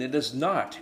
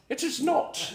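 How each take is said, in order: First: It is said in his normal accent. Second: It is said in a put-on British accent.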